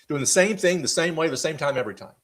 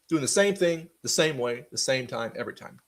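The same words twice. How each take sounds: First: It is said at a normal pace. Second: It is said slightly more slowly.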